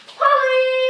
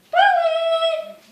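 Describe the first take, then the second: First: Said in the usual way. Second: High call sent far across the park. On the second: Acted. Big sister searching the park, calling out far and high. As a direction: call out to someone far away.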